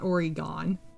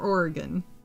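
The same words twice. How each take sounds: First: The middle vowel is clearly pronounced. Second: The middle vowel is barely heard or dropped. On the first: The speaker calls it wrong. "not Oregon" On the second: The speaker calls it right. "if you say the E at all, it's very subtle"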